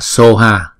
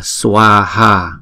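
First: The first syllable is a plain 'so'. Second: The first syllable has a 'w' glide, 'swa'. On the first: This is the Tibetan reading of the word. "chữ này người ta đọc là soha. Soha là từ phiên âm của tiếng Tây Tạng" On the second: This is the Sanskrit reading of the word. "Tiếng Phạn là chúng ta đọc là swaha"

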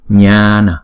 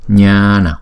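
No difference in how they are said.

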